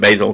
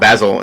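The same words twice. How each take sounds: First: The name is said with its ordinary pronunciation. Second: The name is said with a fancier pronunciation.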